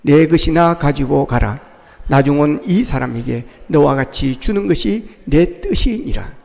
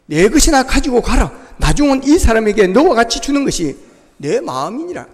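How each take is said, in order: First: Slow, low unison scripture reading with the congregation. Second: Said in the usual way. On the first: Shown as a demonstration. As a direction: read it slowly together, lower. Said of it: "같이 읽겠습니다. 시작". (회중과 함께 천천히 낮게 읽는 성경 낭독) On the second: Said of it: "같이 읽겠습니다".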